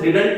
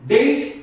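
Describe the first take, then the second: First: The word is said fully with two syllables. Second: The word is shortened to one syllable. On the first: The speaker calls it wrong. "मैं suggest करूंगा आप इसे डिडंट ना pronounce करें" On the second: The speaker calls it right. "इसको आप डिंट pronounce करें। डिंट अच्छा लगता है"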